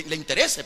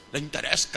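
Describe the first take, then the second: First: Said in the usual way. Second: Interese turned into "interesca"; "interesca" said as a playful slip; joking mispronunciation of interese. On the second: Shown as a demonstration. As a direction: add a c sound to interese. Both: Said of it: "perdón".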